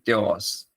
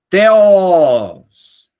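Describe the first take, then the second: First: The word is said flatly, without emotion. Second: The word is said with warm, reverent feeling. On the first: The speaker calls it wrong. "você não pode falar teós, somente teós" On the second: The speaker calls it right. "você tem que colocar agora uma expressão sentimental"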